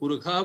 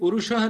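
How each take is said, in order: First: The middle consonant is a kh sound. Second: The middle consonant is a retroflex sh sound. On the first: This is the pronunciation of one particular tradition. "पुरुषः बोला जाता था शुक्ल यजुर्वेद की परंपरा में" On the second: This is the usual pronunciation elsewhere. "नहीं बोलते हुए"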